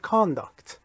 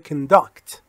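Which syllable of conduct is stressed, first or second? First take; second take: first; second. First: The first vowel is full; stress falls on the first. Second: The first vowel is reduced; stress falls on the second. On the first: It is used as a noun. "اما اگه اسم باشه میشه conduct" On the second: It is used as a verb. "اگر فعل باشه میشه conduct. conduct اون صدای او شوا میشه"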